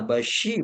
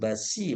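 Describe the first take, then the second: First: The middle consonant is a thick 'sh' sound. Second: The middle consonant is a plain 's' sound. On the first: The speaker calls it right. "shinnya basyi" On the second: The speaker calls it wrong. "bukan basi"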